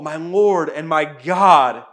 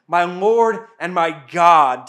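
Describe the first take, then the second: First: Loud, slow exclamation of awe; exclaimed. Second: Loud, slow exclamation, falling at the end; exclaimed. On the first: Thomas cries out to the risen Jesus, loud and slow. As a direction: proclaim it slowly and loudly. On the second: Thomas repeats his confession to Jesus, loud and slow. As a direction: cry it out slowly and loudly as awed confession. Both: A narrator's reading. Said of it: "Thomas exclaimed".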